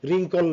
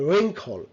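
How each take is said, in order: First: "wrinkle" as RIN-kol; wrong pronunciation. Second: "wrinkle" as REN-khol, w silent; correct pronunciation. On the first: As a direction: say "wrinkle" with an unaspirated k, as a learner would. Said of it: "wrinkle না". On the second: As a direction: say "wrinkle" higher, with a breath of air on the k. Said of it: "it's a". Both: Shown as a demonstration.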